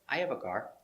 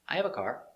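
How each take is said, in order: No difference in how they are said.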